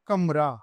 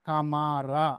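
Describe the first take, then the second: First: No vowel is sounded between m and r. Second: A long vowel is sounded between m and r. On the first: The speaker calls it right. "కమ్ plus రా కమ్రా. ఈ విధంగా ఉచ్చారణ మనము చేయాలి" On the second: The speaker calls it wrong. "కమారా అంటాం"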